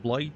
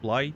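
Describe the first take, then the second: First: The word is said in an Australian accent. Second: The same.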